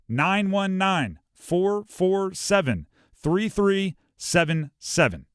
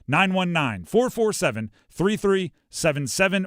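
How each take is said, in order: First: The digits are read slowly and deliberately. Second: The digits are read at normal conversational speed. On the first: "so I'll say it slowly" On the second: "Now I'm going to say it like a normal phone number"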